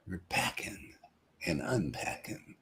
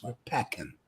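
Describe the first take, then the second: First: Whisper. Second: Said in the usual way. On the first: Shown as a demonstration. Joking aside to the room.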